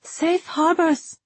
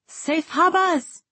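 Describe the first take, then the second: First: High, slow answering call; drawn-out call back with sounded Rs. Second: High, drawn-out farewell call; far-carrying shout with dropped Rs; shouted after them. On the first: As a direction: return the farewell in a sustained high voice. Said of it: "Safi called back". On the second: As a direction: call out slowly to people walking away. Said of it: "Ryber shouted after them". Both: A narrator's reading.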